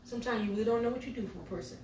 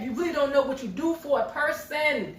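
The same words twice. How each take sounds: First: Said in the usual way. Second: Slow, loud, higher delivery of "You really don't know what you do for a person"; emphatic repeat. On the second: Real, not acted. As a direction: drive home every word of "You really don't know what you do for a person", loudly and slowly.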